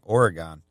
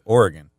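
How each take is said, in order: First: It is said the way Ohio speakers say it. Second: It is said the way Oregon locals say it. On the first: The speaker calls it wrong. "You're obviously from Ohio, by the way you say that, but I do have a friend who is from that state who takes a lot of offense at people saying Oregon" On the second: The speaker calls it right. "people who live there are adamant that it is called Oregon"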